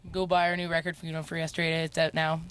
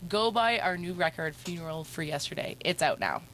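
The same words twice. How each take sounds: First: It is said in a flat monotone. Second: It is said with a lively, varied tune.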